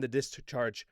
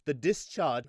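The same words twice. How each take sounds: First: Said in the usual way. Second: Put-on slipping into a British accent; brief mock-British pronunciation. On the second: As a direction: say "discharge" with a British dropped R. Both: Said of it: "I keep going to the British accents".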